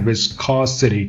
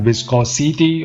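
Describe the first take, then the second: First: The word is said crisply, with clear sounds. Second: The word is said loosely, without crisp sounds. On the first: The speaker calls it right. "Keep it crisp and nice" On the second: The speaker calls it wrong. "Not viscosity or something like that"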